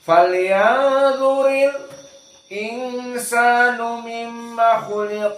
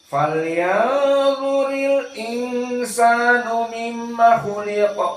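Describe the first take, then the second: First: There is a brief stop just before 'insanu'. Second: The words flow on with no stop before 'insanu'. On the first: This is the reading of one particular reciter. "dijadikan as-saqt" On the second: This is the common reading. "empat qurra di sini dalam keadaan bacaannya sama"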